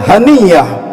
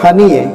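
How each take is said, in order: First: The name ends with an a vowel. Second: The name ends with an e vowel. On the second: "mereka baca"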